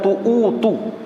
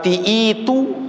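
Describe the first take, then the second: First: The first vowel is a u sound. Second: The first vowel is an i sound. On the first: "bukan tu'utu" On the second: "bukan uh"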